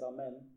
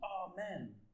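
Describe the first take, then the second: First: It is said with a worried tone. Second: It is screamed loudly in panic.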